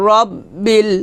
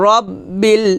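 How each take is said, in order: Both takes have the same delivery.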